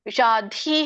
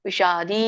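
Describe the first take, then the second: First: The consonant is pressed hard and aspirated. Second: The consonant is said softly without aspiration. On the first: The speaker calls it wrong. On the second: The speaker calls it right.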